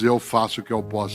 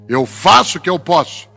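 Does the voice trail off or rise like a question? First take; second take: trails off; rises. First: The voice trails off, resigned, at the end. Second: The voice rises like a question at the end.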